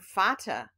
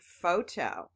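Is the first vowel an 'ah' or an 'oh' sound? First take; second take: ah; oh. First: The first vowel is a short 'ah' sound. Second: The first vowel is a long 'oh' sound. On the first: The speaker calls it wrong. "instead of using ah" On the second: The speaker calls it right. "I'm going to try o"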